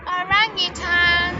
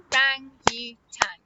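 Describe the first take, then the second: First: Said in the usual way. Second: "Orangutan" slowly split into o-rang-u-tan; syllable by syllable. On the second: Shown as a demonstration. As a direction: say "Orangutan" in four separate beats. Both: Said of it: "That's four syllables".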